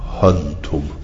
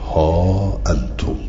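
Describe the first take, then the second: First: Short vowel, running into antum without glottal stop. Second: Long vowel, then a glottal stop before antum. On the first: "به غیر همز ولا مد" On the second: "ها انتم بالمد والهمز"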